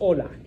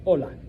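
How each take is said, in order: First: The word begins directly with the vowel sound. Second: The word begins directly with the vowel sound.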